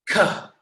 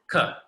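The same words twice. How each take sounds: First: The k has a strong puff of breath. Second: The k is soft with no breath puff. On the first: "take a deep breath in and then go ka" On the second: "the first one is softer"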